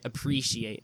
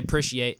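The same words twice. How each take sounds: First: The word is said in full, as spelled. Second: The word is said in a shortened form. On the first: "than to say appreciate" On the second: "it takes less effort to say appreciate"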